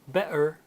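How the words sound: It is said in a Cockney accent. "a Cockney would uh, turn those T sounds into that glottal stop"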